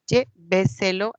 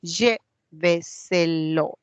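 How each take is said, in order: First: Lléveselo more joined, LLÉ punched loud; stress before antepenultimate. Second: Lléveselo very slowly, split as LLÉ-ve-se-lo; syllable by syllable. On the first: Teacher identifying a sobresdrújula, stress on LLÉ in Lléveselo. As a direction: hit the first syllable of Lléveselo, then run on. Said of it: "eso es una sobresdrújula". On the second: Teacher hunting for the stressed syllable, Lléveselo slowly syllable by syllable. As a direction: break Lléveselo into separate, drawn-out syllables. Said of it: "A ver, ¿dónde va?". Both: Shown as a demonstration.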